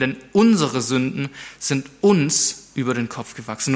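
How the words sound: The first-person words are read with strong emphasis.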